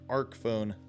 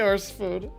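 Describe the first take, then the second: First: The first word ends with a k sound. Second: The first word ends with an s sound. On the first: The speaker calls it right. "It's Arc" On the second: The speaker calls it wrong. "becomes the Arse phone"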